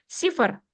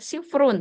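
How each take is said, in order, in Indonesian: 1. Kata ini berakhir polos, tanpa akhiran kasus. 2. Kata ini berakhir dengan akhiran -un. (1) "Dengan disukunkan setiap akhirnya" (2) "tidak usah dibaca sifrun"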